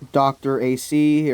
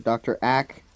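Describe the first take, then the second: First: The name ends with two letters spelled out. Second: The name ends with one short syllable, Ack. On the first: The speaker calls it right. "I think it's Doctor A C" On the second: The speaker calls it wrong. "I don't know why it would be Ack"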